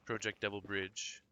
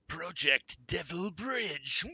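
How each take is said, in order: First: It is read in an ordinary speaking voice. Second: It is read in a menacing villain voice.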